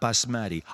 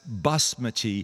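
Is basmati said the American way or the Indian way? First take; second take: American; Indian. First: It is said with the American pronunciation. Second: It is said with the Indian pronunciation. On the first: The speaker calls it wrong. "not basmati" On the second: The speaker calls it right. "That's basmati"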